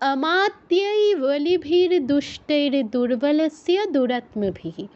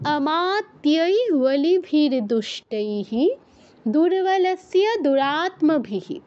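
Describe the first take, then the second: First: The word before durbalasya ends in an r sound. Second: The word before durbalasya ends in an h sound. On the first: The words are joined together in flow. "একসাথে বললে" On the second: The words are said separately, not joined. "যদি ভেঙে বলতে চাই তাহলে কি হবে"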